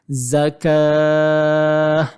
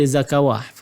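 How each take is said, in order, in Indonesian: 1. Tidak ada bunyi w dibaca sebelum vokal akhir. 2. Bunyi w dibaca sebelum vokal akhir. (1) "Jadi ini bacaan dia" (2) "Jangan baca zakawah"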